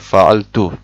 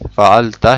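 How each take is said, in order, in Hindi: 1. शब्द u स्वर पर खत्म होता है। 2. शब्द a स्वर पर खत्म होता है। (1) "ता के ऊपर पेश पढ़ लिया" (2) "ता के ऊपर ज़बर है"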